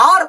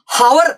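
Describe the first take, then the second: First: "ആർ" starting on an open vowel, no H; silent H. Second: "ഹവർ" with an audible H at the start; H wrongly sounded. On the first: Teacher shows learners the correct word, "ആർ" with silent H. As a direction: drop the H, begin "ആർ" straight on the vowel. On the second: Teacher shows learners the mistake, "ഹവർ" with H sounded. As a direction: say "ഹവർ" wrongly, voicing the written H. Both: Shown as a demonstration. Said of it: "H അവിടെ silent ആണ്".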